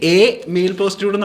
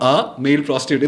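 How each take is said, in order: First: The article is said with an 'ay' vowel. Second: The article is said with an 'ah' vowel. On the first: "നമ്മൾ usually പറയില്ല" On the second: "നമ്മൾ പറയുമ്പോൾ"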